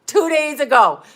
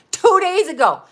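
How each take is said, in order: First: Said in the usual way. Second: "Two days ago" said higher and louder; emphatic repeat. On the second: Real, not acted. Telling viewers it just happened, emphatic repeat. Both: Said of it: "repeated for emphasis".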